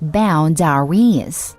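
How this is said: The word is said in a whiny voice.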